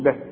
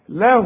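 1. الكلمة تنتهي بصوت وقفي بلا حركة. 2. تُمَدّ الحركة الأخيرة حركتين. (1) "إذا وقفت على له تقول له" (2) "وعند الوصل هتمدها حركتين"

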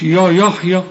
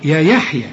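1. صوت 'ya' ثقيل ومُفخَّم. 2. صوت 'ya' خفيف ورقيق. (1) "مش يا يحيى" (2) "يا يحيى مش يا يحيى"

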